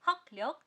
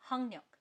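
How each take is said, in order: First: The first syllable ends in k, then l. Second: The first syllable ends in ng, then n. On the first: "लिखेंगे हमेशा हकल्यक" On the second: "pronounce करेंगे हंगन्यक"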